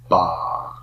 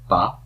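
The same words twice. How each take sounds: First: The vowel is held long. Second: The vowel is held short. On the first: "This is a long A though" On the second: "hold it shorter"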